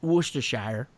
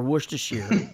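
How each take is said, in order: First: Worcestershire said the American way, "WUSS-ter-shire"; Worcestershire with a full "shire" ending. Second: Worcestershire said the other American way, ending in "sheer"; Worcestershire with a "sheer" ending and a rising tune; alternate Worcestershire. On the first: Explaining to fans how Americans say Worcestershire. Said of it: "we say". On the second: Giving fans the second American way to say Worcestershire. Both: Shown as a demonstration.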